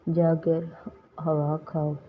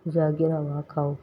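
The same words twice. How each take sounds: First: जाकर, a clear pause, then हवा खाओ; word by word. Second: Said in the usual way. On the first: Shown as a demonstration. Teacher reading out a translation for learners, जाकर and हवा खाओ separated. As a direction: break it after जाकर with a half-second pause.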